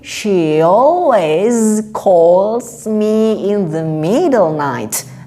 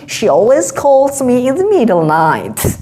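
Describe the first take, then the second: First: The sentence is said at a normal speed. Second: The sentence is said noticeably faster.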